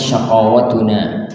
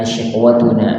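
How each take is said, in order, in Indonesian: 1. Vokal pertama adalah a, dengan a panjang setelah q. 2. Vokal pertama adalah i, tanpa vokal setelah q.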